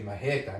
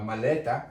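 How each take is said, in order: First: The middle consonant is an R sound. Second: The middle consonant is an L sound. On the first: The speaker calls it right. "you say majeta. It becomes an R" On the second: The speaker calls it wrong. "you don't say"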